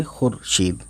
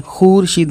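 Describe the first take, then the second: First: "खुरशीद" as khur-sheed, lower and softer, short u; short vowel. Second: "खुरशीद" as khoor-sheed, long oo; wrong long vowel. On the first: Teacher showing the right reading, short vowel. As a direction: keep khur brief in खुरशीद. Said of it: "नहीं पढ़ेंगे". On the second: Teacher showing what not to read, long vowel. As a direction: stretch the first syllable of खुरशीद. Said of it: "खुरशीद नहीं पढ़ेंगे". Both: Shown as a demonstration.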